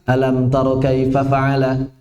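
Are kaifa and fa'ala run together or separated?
run together. Kaifa and fa'ala run together without separation. The speaker calls it wrong. "Jangan sampai terbaca"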